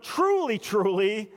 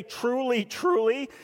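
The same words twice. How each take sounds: First: "Truly" leapt up high and hit hard, then "truly" settles back down; a weighty, insistent "Truly, truly"; emphatic truly. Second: Said in the usual way. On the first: Shown as a demonstration. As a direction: lean hard on the first "Truly," then ease off on "truly". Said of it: "not just truly, but". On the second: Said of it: "not just truly".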